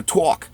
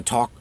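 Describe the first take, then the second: First: "talk" as New York "twawk"; New York accent. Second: Said in the usual way. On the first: Shown as a demonstration. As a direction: say "talk" like a New Yorker, rounded "aw". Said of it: "like that if you live". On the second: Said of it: "talk like that".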